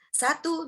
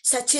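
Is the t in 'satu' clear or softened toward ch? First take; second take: clear; softened. First: The t is pronounced as a clear t. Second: The t is softened into a ch sound. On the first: The speaker calls it right. "Tetap satu" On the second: The speaker calls it wrong. "Nggak ada yang C jadi T atau T jadi C"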